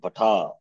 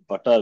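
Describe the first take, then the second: First: The final vowel is long. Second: The final vowel is short.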